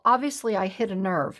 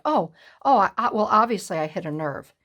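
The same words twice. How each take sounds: First: Said in the usual way. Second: Mocking nonchalance. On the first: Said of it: "she just says". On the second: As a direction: parody her shrugging it off. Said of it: "you're so nonchalant about it".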